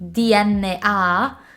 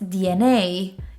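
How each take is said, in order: First: The letters are read with Italian letter names. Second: The letters are read with English letter names. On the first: The speaker calls it wrong. "So many Italian students say D N A" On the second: The speaker calls it right. "I know it's D N A"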